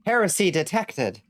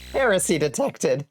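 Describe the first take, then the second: First: Said through a laugh, falling at the end; half-laughing, amused; laughing read. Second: A higher mock fanatic's voice, HERESY punched; mock zealot. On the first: Real, not acted. Reads chat line, laughing. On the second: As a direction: play a zealot sounding the alarm, tongue in cheek. Repeats chat line in mock voice.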